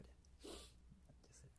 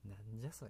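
First: なんじゃそれ said again in a soft unvoiced whisper; half-amused whispered aside; whispered repeat. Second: Said in the usual way. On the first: Real, not acted. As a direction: mutter it to yourself under your breath. Retort repeated under breath.

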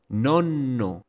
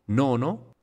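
First: Nonno with a long held N, falling; double consonant. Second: Nono with one short N and long first O, rising; single consonant. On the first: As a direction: linger on the middle N of nonno. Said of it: "con doble consonante para que se note". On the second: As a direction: say nono with no hold on the N. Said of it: "una palabra con una sola consonante". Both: Shown as a demonstration.

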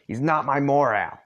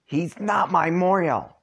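First: Loud insistent shout; shouted denial. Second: High, loud, slow indignant yell; two kids yelling in unison, outraged; shouted denial. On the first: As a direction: yell it back at the boys. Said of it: "You and Solix shout". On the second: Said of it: "both Solix and, uh, Karkat at the same time". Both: Acted.

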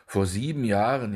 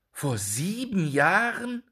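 First: Said in the usual way. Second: High, slow cry of horror; horrified cry. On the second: A narrator's reading. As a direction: repeat it in disbelief and shock. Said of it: "rief Jakob mit Entsetzen". (entsetzter Ausruf)

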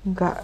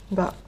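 The two takes are said the same way.

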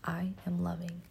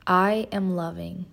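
First: Quiet repeated affirmation; soft echo. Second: Spoken affirmation. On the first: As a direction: repeat it softly to yourself. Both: Shown as a demonstration. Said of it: "Say it with me".

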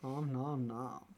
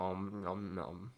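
First: Slow, soft copy of the munching; mock greedy smacking. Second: Slow, soft om nom nom chewing sounds; munch the words like a greedy eater; greedy smacking while eating. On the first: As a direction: echo the om nom nom lazily. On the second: Pretend. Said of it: "I'm having my bread and eating it too".

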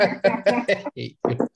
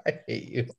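First: Laughing through the words; half-laughing, high and slow. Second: Said in the usual way. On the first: Real, not acted. Friend jokes he's racist.

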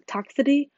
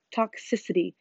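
First: "toxicity" with a syllable dropped, like "tox-ity"; questioning "toxicity", said short as "TOX-uh-tee"; mispronounced word. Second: "Toxicity" with every syllable, "tox-SIS-ih-tee"; careful, falling "Toxicity" with the "sis" sounded; corrected pronunciation. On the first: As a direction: swallow the "-ic-" in "toxicity", rising at the end. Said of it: "that's not how you say it". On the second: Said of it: "It's toxic". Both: Real, not acted.

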